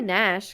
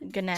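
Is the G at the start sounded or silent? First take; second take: silent; sounded. First: The word starts with a plain n sound. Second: The word starts with a hard g sound. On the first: The speaker calls it right. "that's how you say it" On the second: The speaker calls it wrong. "would be weird"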